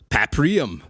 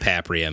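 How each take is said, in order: First: It is said in an over-the-top announcer voice. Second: It is said in a plain, ordinary voice. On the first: The speaker calls it wrong. "is how they pronounce it in the intro screen" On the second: The speaker calls it right. "that's less obnoxious"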